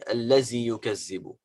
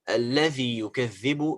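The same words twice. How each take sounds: First: The dhal is pronounced like a z sound. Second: The dhal is pronounced like a voiced th sound. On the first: The speaker calls it wrong. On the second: The speaker calls it right.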